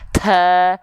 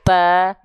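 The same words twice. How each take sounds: First: The letter has an exaggerated, heavy puff of breath. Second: The letter is strong with a light puff of breath. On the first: The speaker calls it wrong. "Jangan berlebihan, jangan takaluf. ... jangan sampai" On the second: The speaker calls it right. "dilafalkan dengan kuat dan dipercikan nafasnya"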